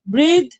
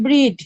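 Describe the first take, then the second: First: ব্রিথ with a long held ee; long ee breathe. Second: ব্রিড ending in a hard d; breed with d. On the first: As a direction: hold the ee in ব্রিথ. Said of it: "মানে বেশিক্ষণ টানতে হবে". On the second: Teacher contrasts word pair: hard d ending. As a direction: end ব্রিড on a crisp d. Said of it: "আর এটা হচ্ছে ব্রিড". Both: Shown as a demonstration.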